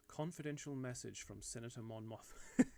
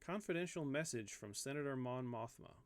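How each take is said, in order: First: It is read in a put-on British accent. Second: It is read in the speaker's ordinary accent.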